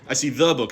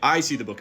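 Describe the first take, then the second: First: The stress falls on the word the. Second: The stress falls on the word I. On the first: It is this particular book, not another. "not some other book" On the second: It is me, not someone else, who sees it.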